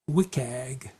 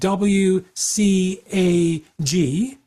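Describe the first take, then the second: First: W is spelled, then CAG is one word. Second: All four letters are spelled out separately. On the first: "the cool kids often say like W C A G" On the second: "you can say like W C A G, and that's okay"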